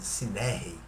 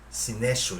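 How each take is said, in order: First: The middle consonant is a rough r sound. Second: The middle consonant is a sh sound. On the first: This is how it sounds in Greek. "a pronúncia no grego totalizando é sinerrei" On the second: This is how it looks written in Portuguese. "escrito na língua portuguesa sinesho"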